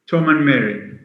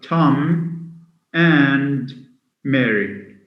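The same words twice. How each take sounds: First: The word 'and' is weak and unstressed. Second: The word 'and' is loud and stressed. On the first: "the weak forms of and" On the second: "We say it louder. And it has a, a strong form"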